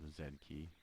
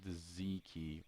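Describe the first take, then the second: First: The letter is said zed, the Canadian way. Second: The letter is said zee, the American way.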